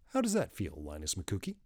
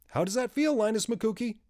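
First: It is said at normal loudness. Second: It is said a little louder.

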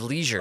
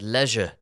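First: The word is pronounced the American way. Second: The word is pronounced the South African way. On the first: It is how an American would say it. "instead of leisure" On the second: It marks the speaker as not American. "he's clearly not from America because he said leisure"

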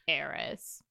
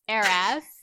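First: The word sounds disapproving and judgmental. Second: The word sounds light and admiring. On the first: The title is meant with disapproval. "I can tell that your tone carries a lot of judgment" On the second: The title is meant fondly. "If I'm talking about Paris Hilton, it's Heiress"

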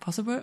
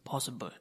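First: It is said in a normal voice. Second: It is said in a very deep voice.

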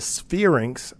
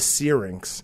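First: The word begins with an 'sf' sound. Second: The word begins with a plain 's' sound. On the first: The speaker calls it wrong. "I refer to this organ as the spherinx" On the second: The speaker calls it right. "but it's the syrinx"

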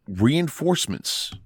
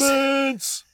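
First: It is said flatly, without excitement. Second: It is said loudly with excitement.

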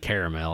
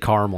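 First: The word has three syllables, with the middle vowel. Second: The word has two syllables, without the middle vowel. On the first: This is how the others say it. "you all say caramel" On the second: This is the speaker's own way of saying it. "I say caramel"

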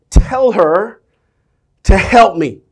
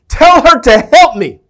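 First: It is said calmly, without force. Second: It is said loudly, like an exclamation.

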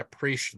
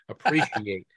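First: The word is said loosely, with sounds blurred. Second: The word is said carefully, every sound clear. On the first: The speaker calls it wrong. "I should say appreciate" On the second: The speaker calls it right. "Let's enunciate here"

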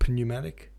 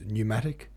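First: The word starts with a P sound. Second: The word starts without a P sound. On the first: The speaker calls it wrong. "not pneumatic" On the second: The speaker calls it right. "which is spelled P-N-E-U, but it's pronounced pneumatic"

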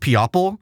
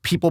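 First: The word is said as spelled, sounding the o. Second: The word is said with its usual pronunciation. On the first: The speaker calls it wrong. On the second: The speaker calls it right.

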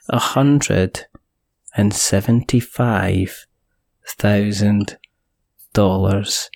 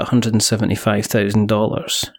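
First: It is said slowly and deliberately. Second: It is said at normal speed.

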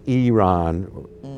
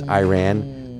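First: It uses the native local pronunciation. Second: It uses the common English pronunciation. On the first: This is how the people there say it. The speaker calls it right. "really it's Iran. That's the way they pronounce it" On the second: This is how most people say it. The speaker calls it wrong. "I know everyone says Iran"

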